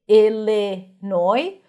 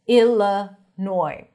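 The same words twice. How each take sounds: First: The second vowel is a clear short i. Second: The second vowel is reduced to a schwa. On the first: "some people might pronounce it as an I" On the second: "some people might reduce it"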